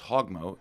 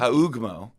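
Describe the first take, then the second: First: The first vowel is a plain short sound. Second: The first vowel is stretched with a U sound. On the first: The speaker calls it right. "his name was Hogmo" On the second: The speaker calls it wrong. "they'd add a little emphasis on the U"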